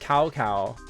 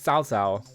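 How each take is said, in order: First: The name sounds like the English word cow. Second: The name is said with Chinese sounds. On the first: The speaker calls it wrong. "I was one of those people that was like" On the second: The speaker calls it right. "It's like Cao Cao. It's like it's not how you would like expect it to be pronounced"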